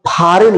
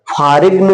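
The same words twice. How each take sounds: First: फॉरेन with no g before the final n; silent g. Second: फॉरेन misread as "phaarigna", g sounded; wrong pronunciation. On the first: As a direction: say फॉरेन, ending on a simple n. (फॉरेन, बिना ग की आवाज़ के) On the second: (फॉरेन को गलत तरह "फारिग्न" बोलना) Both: Shown as a demonstration. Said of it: "फॉरेन नहीं".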